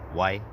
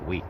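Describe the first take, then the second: First: It is said the rural Quebec way. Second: It is said the urban Quebec way. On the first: "for rural Quebecois specifically, ... there's a different pronunciation" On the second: "more metropolitan areas ... most often, people pronounce the word yes"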